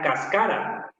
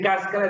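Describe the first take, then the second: First: The stress is on the second syllable. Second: The stress is on the first syllable. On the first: This is how a Quechua speaker learning Spanish says it. "muchas palabras esdrújulas las va a pronunciar como grave" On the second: This is the usual Spanish pronunciation. "En vez de decir cáscara"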